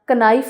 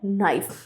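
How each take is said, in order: First: It begins with a K sound before the N. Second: It begins directly with the N sound. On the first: The speaker calls it wrong. "कनाइफ नहीं पढ़ते" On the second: The speaker calls it right. "हम के को silent रखते हैं"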